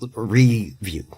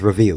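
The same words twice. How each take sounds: First: The first syllable 're' is long and stretched. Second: The first syllable is a short, reduced 'ruh'. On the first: The speaker calls it right. "he stretches the re part out a lot" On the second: The speaker calls it wrong. "He never says review like ruh"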